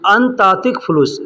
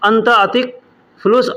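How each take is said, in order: First: The first two words run together as one. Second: The first two words are said as separate words. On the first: "अंतातिक यानी एक में मिला करके अंत और अतिक को एक में मिला करके बोला जाता है" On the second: "अलग बोलेंगे"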